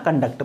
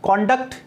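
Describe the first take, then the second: First: कंडक्ट with the stress on duct; stress on second syllable. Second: कॉन्डक्ट with the stress on कॉन; stress on first syllable. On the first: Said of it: "second syllable पर stress". (दूसरे syllable पर ज़ोर देकर कंडक्ट) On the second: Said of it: "As a noun". (पहले syllable पर ज़ोर देकर कॉन्डक्ट) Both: Shown as a demonstration.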